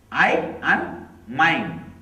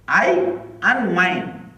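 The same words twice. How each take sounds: The two takes are said the same way.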